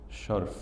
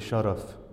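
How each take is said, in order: First: The r is followed directly by f. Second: A short a vowel comes after the r. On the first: The speaker calls it wrong. "In the transliteration it says, sharf. I'm tempted to say that that's not correct" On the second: The speaker calls it right. "The usual usage would be to say sharaf with fath al-ra, not taskin al-ra"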